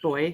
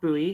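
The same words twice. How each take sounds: First: It is said the non-North American way. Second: It is said the North American way. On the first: The speaker calls it right. "I said it correctly, even though I'm from North America" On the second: The speaker calls it wrong.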